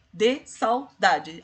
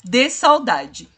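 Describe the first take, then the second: First: "De saudade" slow, at normal volume; drawn out evenly, counting beats; slow syllable count. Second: "De saudade" slow and loud, each syllable split; syllables pulled apart. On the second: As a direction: separate "sau-da-de" with a louder push. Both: Shown as a demonstration. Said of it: "deve ser separado".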